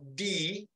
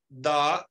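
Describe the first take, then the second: First: The word ends in a long 'ee' vowel. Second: The word ends in a short 'uh' vowel. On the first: Used before a word starting with a vowel. "di cuando la siguiente palabra empieza por vocal" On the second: Used before a word starting with a consonant. "lo pronunciamos the cuando la siguiente palabra empieza por consonante"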